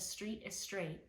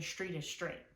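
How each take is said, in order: First: Street begins with a plain s sound. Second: Street begins with a sh sound. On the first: "you might say a street is straight" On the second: "we substitute a sh sound for a s sound"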